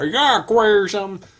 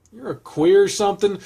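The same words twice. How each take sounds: First: Lightly put-on southern accent, higher and louder. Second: Said in the usual way. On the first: Reader redoing the line as intended, southern accent. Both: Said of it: "Say that with a southern accent".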